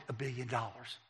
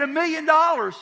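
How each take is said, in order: First: Low, soft, matter-of-fact statement; understated retold admission; quiet disclosure. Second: Loud, very high, incredulous question; retold high-pitched disbelief; astonished exclamation. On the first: Wife calmly states the amount. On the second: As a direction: blurt it out in mock shock. Agent astonished at the amount.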